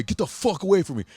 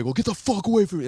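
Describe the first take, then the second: First: Higher, louder repeat of the warning; mock yell. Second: Sharp higher snap to back off; louder, higher, quicker get-away warning; mock yell. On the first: Tattooed guy walking off, repeating his warning, mock yell. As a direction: snap it again as he walks off. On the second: Tattooed guy yelling at the phone crowd to back off, mock yell. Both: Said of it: "they're walking away".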